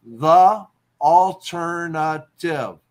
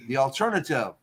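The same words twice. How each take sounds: First: "alternative" very slow, each syllable apart and punched loud. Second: Said in the usual way. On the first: Shown as a demonstration. Teacher counting syllables for a haiku line, "alternative" syllable by syllable.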